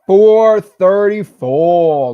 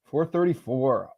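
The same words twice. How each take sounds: First: Long, loud, high hype call; excited drawn-out shout. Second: Said in the usual way. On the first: Real, not acted. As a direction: stretch it out like a cheer. Celebrating member count live.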